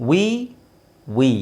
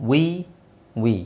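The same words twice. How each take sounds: No difference in how they are said.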